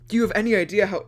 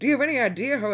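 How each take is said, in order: First: It is said in a normal speaking voice. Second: It is said in a put-on wizard voice. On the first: The speaker calls it wrong. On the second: The speaker calls it right.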